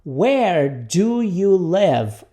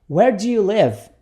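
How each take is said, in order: First: Very slow, every word stretched; repeat-after-me model. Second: Connected, moderately slow question; repeat-after-me model. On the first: Teacher introduces the question to students, very slowly. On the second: Teacher repeats the question for students, joined and measured. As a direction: say it as one measured phrase. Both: Shown as a demonstration. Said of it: "Repita comigo".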